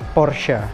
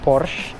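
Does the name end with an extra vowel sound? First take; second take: yes; no. First: It ends with a slight final a sound. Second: It ends without a final vowel sound. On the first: The speaker calls it right. "Ada kayak sedikit huruf A-nya gitu di akhir" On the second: The speaker calls it wrong. "yang kemudian akhirnya gue nyebutnya Porsche"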